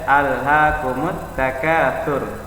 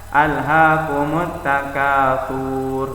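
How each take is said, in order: First: The sound at the end is kept short. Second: The sound at the end is drawn out long. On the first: The speaker calls it right. "tapi dibaca" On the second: The speaker calls it wrong. "Jangan dipanjang"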